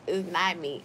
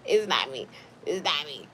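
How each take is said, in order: First: Said in the usual way. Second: Low joking voice. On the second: Shown as a demonstration. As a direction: drop into a deep mock voice. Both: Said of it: "My liquor is making me be like this".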